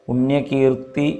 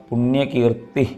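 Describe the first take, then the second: Both takes have the same delivery.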